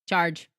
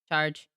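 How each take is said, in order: First: The word has a lot of pitch movement. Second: The word has little pitch movement. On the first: The speaker calls it wrong. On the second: The speaker calls it right.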